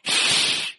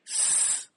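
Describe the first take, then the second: First: The consonant is a slurred hushing sh sound. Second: The consonant is a sharp hissing s sound. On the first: "some people say it like a drunk" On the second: "some people say S like a snake"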